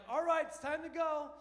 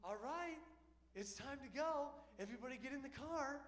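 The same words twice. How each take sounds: First: Loud, higher cheery call to leave; jovial mom. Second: A light, higher, sing-song flight attendant chirp; stewardess mom. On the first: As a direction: call everyone back cheerfully, full voice. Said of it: "it always starts kinda jovial". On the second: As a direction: chirp it like a polite stewardess herding passengers. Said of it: "Kinda like a stewardess". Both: Retold or imitated.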